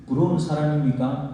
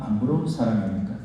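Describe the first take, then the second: First: 부러운 stressed with a rising question tone; preacher asking the congregation, ending on a rise. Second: 부러운 stressed, lower, with a falling tone; preacher's counter-question, lower and falling. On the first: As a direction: ask 부러운 사람입니까 with the pitch going up. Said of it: "preacher poses contrasting question". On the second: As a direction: drop 안 부러운 사람입니까 low and falling. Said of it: "contrasting second question". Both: Shown as a demonstration.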